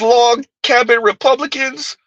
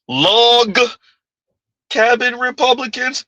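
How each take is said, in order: First: No single word is especially stressed. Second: The word log is strongly stressed.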